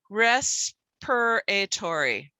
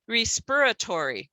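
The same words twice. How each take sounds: First: The first vowel is a short eh sound. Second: The first vowel is a long ee sound. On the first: The speaker calls it right. "we're going to try the eh sound" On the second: The speaker calls it wrong. "instead of the E"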